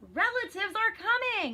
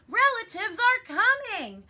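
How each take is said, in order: First: It is said in a plain reading voice. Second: It is said loudly with strong emphasis.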